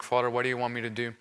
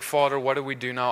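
First: Softer and fast, a hushed rushed prayer; silent inner prayer. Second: Said in the usual way. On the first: Retold or imitated. Praying to the Father in his heart during deliverance, hushed and fast. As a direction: murmur it to yourself as if only in your heart. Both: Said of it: "I, in my heart".

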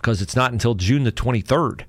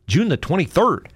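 First: Said in the usual way. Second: June the twenty-third said higher with a falling end; emphatic repeat. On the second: Real, not acted. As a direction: hit June to drive the date home.

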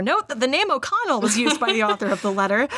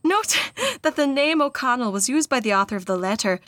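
First: Said in the usual way. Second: Put-on Irish accent carried over into a note; attempted Irish accent, deliberate reading; mistaken Irish accent. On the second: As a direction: read the note in an Irish lilt. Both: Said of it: "we're not in the letter anymore".

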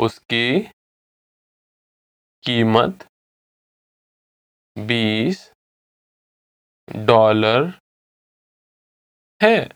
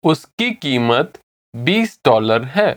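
First: Word by word, long silences between; slow repeat. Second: Said in the usual way. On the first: Shown as a demonstration. Teacher models the twenty dollar answer, slowly. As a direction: say each word separately and slowly. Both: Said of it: "I'll say it again slowly".

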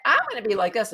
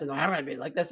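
First: Brighter and louder, bold; one way. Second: Lower, darker contrasting voice; another way. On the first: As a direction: push it up bright and loud. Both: Shown as a demonstration. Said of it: "[name] is just like".

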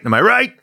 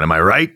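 First: Pitched high, rousing cheer; rising rallying call. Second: Said in the usual way. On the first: Pretend. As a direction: whip the gang into a cheer. Rising repeated rallying question.

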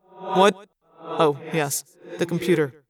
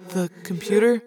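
First: Absent start, then settling into recollection; distracted. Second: Hesitant little question; timid. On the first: Prince is reminded of the computer request, distractedly. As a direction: come out of a brooding reverie. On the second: Arbron reminds the prince of his request, timidly. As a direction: tentatively float the reminder. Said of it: "Arbron asked timidly". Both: A narrator's reading.

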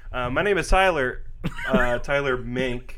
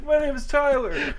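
First: Slowed, careful self-introduction; carefully announced name; slow deliberate intro. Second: Higher, hammed-up redo of his own introduction; mock own intro. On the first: Real, not acted. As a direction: spell out your own name slowly, as if unsure. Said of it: "Why'd you say it like that?". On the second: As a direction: say your name like the game show kid. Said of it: "in the exact same cadence".

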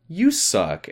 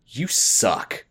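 First: Higher, wounded echo of the insult; hammed-up sad comeback; mock hurt echo. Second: Flat, dismissive jab; curt mock insult; glaring put-down. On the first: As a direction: throw it back, pretending to be hurt. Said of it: "the girl gets really sad and goes". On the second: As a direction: sneer it at a passing girl. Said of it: "Kathy just glares at her and says".

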